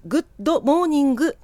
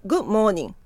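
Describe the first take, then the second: First: Every sound said, the d in グッドモーニング clearly spoken; グッドモーニング with a full d at the end of good; full good morning. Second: グッモーニング with the d of good left out; グッモーニング, good and morning run together; dropped final d. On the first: Teacher shows the wrong way, full d in good. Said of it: "グッドモーニングではなくて". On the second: Teacher gives the right way, final d dropped. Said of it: "語尾にD、G、Tがあった場合には". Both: Shown as a demonstration.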